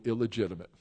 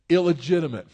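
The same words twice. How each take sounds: First: Said in the usual way. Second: "illegitimate" louder and higher, stressed; emphatic repeat. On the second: Acted. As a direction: land hard on "illegitimate". Repeating the key word louder.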